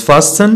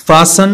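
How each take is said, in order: First: "fasten" as fas-ten, T audible; T sounded. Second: "Fasten" as fassen, no T; silent T. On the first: Teacher shows what not to say, T sounded in "fasten". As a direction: say "fasten" pronouncing the T. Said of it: "not fasten". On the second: Teacher models common words, silent T in "Fasten". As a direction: say "Fasten" with the T dropped. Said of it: "T is not pronounced". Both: Shown as a demonstration.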